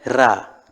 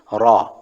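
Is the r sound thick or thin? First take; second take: thin; thick. First: The r is said thin and light. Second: The r is said thick and heavy. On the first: The speaker calls it wrong. "bukan Ra" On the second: The speaker calls it right. "cara membacanya adalah tebal. Seperti Ra"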